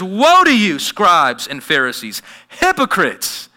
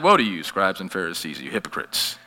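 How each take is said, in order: First: It is said loudly and forcefully. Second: It is said softly and mildly.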